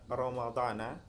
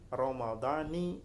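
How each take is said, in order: First: The word ends with the syllable na. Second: The word ends with the syllable ni. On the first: The phrase 'this year' would attach to the intention, not Ramadan. The speaker calls it wrong. "misalkan Ramadan ini dibaca Ramadana" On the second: The phrase 'this year' attaches to Ramadan itself. The speaker calls it right. "harus dibaca mudhaf kepada hadhis sanah"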